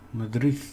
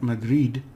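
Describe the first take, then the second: First: The final sound is a soft th. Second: The final sound is a hard d. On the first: The speaker calls it right. "the D is a th on the end of a word" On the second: The speaker calls it wrong. "not Madrid"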